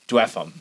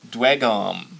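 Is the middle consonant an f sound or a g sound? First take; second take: f sound; g sound. First: The middle consonant is an f sound. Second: The middle consonant is a hard g sound.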